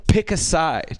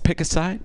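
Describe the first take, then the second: First: "Pick a side" as a firm command; "Pick a side" stated as a slogan, final word falling; reading a sign. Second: "Pick a side?" with a rising end; puzzled repeat of "Pick a side?", tune lifting at the end; questioning echo. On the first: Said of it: "there was a sign that said". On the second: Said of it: "And it was like". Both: Retold or imitated.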